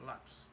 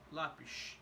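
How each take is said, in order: First: The final sound is a plain s. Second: The final sound is a sh. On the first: "the letter S in in in Brazil is just S" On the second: "the final S in Portugal is more like a sh sound"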